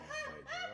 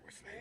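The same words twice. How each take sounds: First: It is said in a normal voice. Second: It is said in a whisper.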